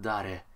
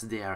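First: It is said like the Japanese word dare. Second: It is said like the English word dare. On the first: The name plainly means who. "and not Dare" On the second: The meaning of the name stays hidden. "I pronounce it as Dare"

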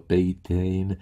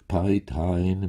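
First: The word is pronounced the Czech way. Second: The word is pronounced the German way. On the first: This is how the pupils had said it before. "jak jsme to vyslovovali před ním" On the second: This is how the teacher wanted it said. "ten vyslovoval řečtinu po německu"

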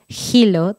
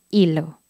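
First: The word starts with an audible h sound. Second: The word starts directly with the vowel. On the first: The speaker calls it wrong. "No decimos hilo" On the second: The speaker calls it right. "la H es silenciosa"

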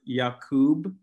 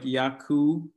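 First: The name ends with a clear B sound. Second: The name ends without any B sound. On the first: The speaker calls it right. "the pronunciation that I have is Jacoub" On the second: The speaker calls it wrong. "a lot of people forget the B"

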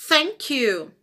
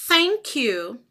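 Both takes have the same delivery.

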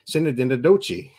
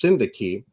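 First: The word is given a garbled, made-up reading. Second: The word is given its standard pronunciation. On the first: The speaker calls it wrong. "We all laughed knowing that was not it" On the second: The speaker calls it right. "It's pronounced Syndaki"

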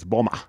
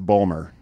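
First: The name ends without any r sound. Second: The name ends with a clear r sound. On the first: This is how the local listeners say it. "When you guys say it, it's Boma" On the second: This is how the spelling suggests saying it. "If you look at the spelling, it's Bomar"

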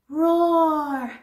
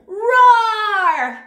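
First: It is said quietly. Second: It is said loudly.

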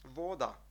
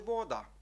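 First: It is pronounced the Czech way. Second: The same.

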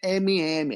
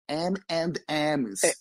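First: The name has a Brazilian Portuguese pronunciation. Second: The name has an English-like pronunciation. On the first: The speaker calls it wrong. "não é M&M" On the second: The speaker calls it right. "é M&M's"

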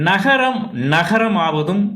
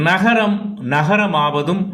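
No difference in how they are said.

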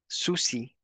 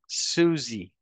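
First: The middle consonant is a voiceless s sound. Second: The middle consonant is a voiced z sound. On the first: The speaker calls it wrong. "We do not say Susie as we do in Spanish" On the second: The speaker calls it right. "We say Suzy"

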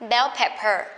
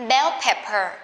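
The two takes are said the same way.

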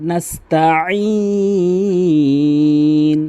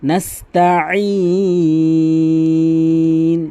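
Both takes have the same delivery.

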